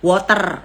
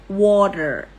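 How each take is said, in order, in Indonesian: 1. Ini diucapkan dengan aksen Inggris yang berlogat Jawa. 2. Ini diucapkan dengan aksen Amerika. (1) "Kalau Jonglish" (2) "pakai logatnya logat U S ya"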